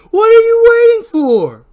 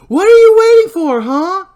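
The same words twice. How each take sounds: First: Very high, very loud and slow, drawn-out shriek; slower repeated scream while spinning around. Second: High, very loud taunting shriek; screaming taunt at the unseen killer; furious scream. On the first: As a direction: stretch the scream out as she spins. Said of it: "She adds a spin with an overhead shot as she repeats". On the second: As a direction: scream the challenge into the night. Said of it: "as she repeats". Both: Acted.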